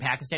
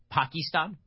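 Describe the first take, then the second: First: It is said with a plain American pronunciation. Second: It is said with a local-style foreign pronunciation. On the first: "instead of saying Pakistan" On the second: "the particular pronunciation of countries based on what he thought they should be"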